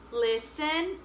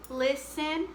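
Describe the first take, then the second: No difference in how they are said.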